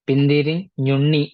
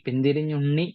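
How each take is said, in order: First: The word is split with a break mid-word. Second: The word is said joined without a break. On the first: "വാക്കുകൾ മുറിക്കുന്ന ആ ഒരു രീതി" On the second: "എഴുതിയിരിക്കുന്നത് അങ്ങനെ ആയിരിക്കാം"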